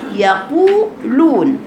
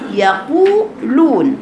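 First: The long u vowel sounds light and forward. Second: The same.

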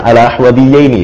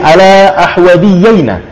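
First: The last word ends with an 'i' vowel. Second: The last word ends with an 'a' vowel. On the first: This is the standard form of the dual. "seharusnya kan ala ahwadiyaini" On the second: This is a dialect form of the dual. "Namun di sini ala ahwadiyaina"

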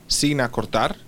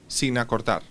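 The two takes are said the same way.

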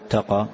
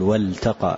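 First: The L sound is weakened and barely heard. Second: The L sound is pronounced fully and clearly. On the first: The speaker calls it wrong. "ما تقول التقى" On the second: The speaker calls it right. "تقول والتقى، يعني أظهرها تماما"

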